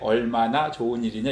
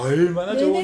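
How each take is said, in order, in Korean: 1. 이 문장은 평평하게, 고르고 담담하게 읽어요. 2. 이 문장은 생동감 있게, 다양하고 풍부하게 읽어요. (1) "이렇게 우리가 말 안 하고" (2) "이렇게 말하잖아요"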